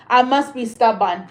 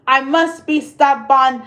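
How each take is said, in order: First: Said in the usual way. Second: I must be stubborn slower, must leaned on; stress on must. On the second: Shown as a demonstration. Owning her stubbornness to viewers, slow emphatic. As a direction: drag it out and lean on must.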